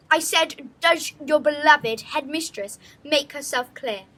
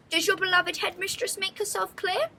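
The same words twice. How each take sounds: First: Louder, firmer repeat of the question; insistent repeat. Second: Lofty, higher question to the pupils; a grand headmistress asking; haughty headmistress. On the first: Headmistress repeats to murmuring pupils, louder and insistent. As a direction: demand an answer this time. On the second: Headmistress asks her pupils, high and haughty. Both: Acted.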